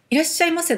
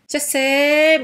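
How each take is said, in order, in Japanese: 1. 挨拶は全部の音を発音します。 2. 挨拶は二音節に縮めて言います。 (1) "いらっしゃいませのこと" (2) "言い方がすごい独特な人いるんですよ"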